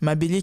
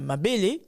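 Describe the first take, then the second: First: Both e vowels carry the same level of prominence. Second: The second e vowel is more prominent than the first. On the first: It means earth. "avec la prononciation que j'ai utilisée, qui fait référence à la terre" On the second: It means breast. "on accentue davantage le deuxième E"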